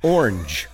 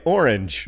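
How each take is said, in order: First: "Orange" pushed into one syllable, orngj; "Orange" forced into a single syllable; one-syllable orange attempt. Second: "Orange" said as two syllables, OR-inge; "Orange" as or-inge, two beats. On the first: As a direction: try to squash "Orange" into one beat. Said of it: "Did I say it right that time?". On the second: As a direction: give "Orange" both syllables. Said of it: "I do say it in two syllables". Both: Shown as a demonstration.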